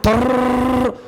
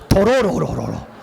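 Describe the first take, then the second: First: The tongue vibrates in one continuous trill. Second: Each syllable is said separately with single taps. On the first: The speaker calls it right. "혀를 떨어라" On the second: The speaker calls it wrong. "도로로로 하라는 게 아니에요"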